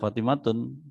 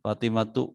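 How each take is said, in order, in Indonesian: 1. Kata itu diakhiri dengan bunyi n tambahan. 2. Kata itu berakhir pada vokal, tidak ada n. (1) "Antum nggak boleh bilang Fatimatun" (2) "Fatimatu aja udah"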